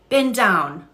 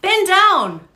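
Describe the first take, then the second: First: Said in the usual way. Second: Loud, much higher barked command; urgent shout. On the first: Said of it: "I didn't do that right". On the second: Shown as a demonstration. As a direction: order him down, urgently. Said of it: "Let's try again".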